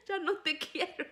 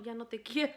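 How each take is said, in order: First: Laughing. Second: Said in the usual way. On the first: Retold or imitated. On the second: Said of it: "Ya no te quiero" repeated laughing".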